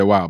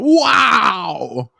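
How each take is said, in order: First: It is said in a flat, ordinary way. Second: It is said in a very excited way.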